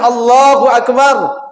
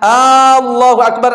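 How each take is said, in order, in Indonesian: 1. Vokal pertama dibaca pendek. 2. Vokal pertama dibaca panjang. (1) "Yang seharusnya" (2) "Kalau dia sudah tambah panjang hamzahnya"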